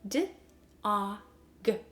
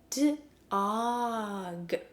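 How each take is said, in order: First: The sounds are separated by short pauses. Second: The sounds are stretched together without pauses.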